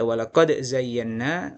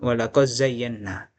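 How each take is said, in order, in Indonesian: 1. Bunyi d diucapkan jelas sebelum z. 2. Bunyi d menyatu ke z yang mengikutinya. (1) "dia bisa baca idhar" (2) "dan baca idgham"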